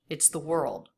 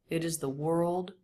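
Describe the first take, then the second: First: It is contracted into a single syllable. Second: It is said as two full syllables. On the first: "most people would make that a contraction in conversational English" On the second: "He says, it is, it is, it is"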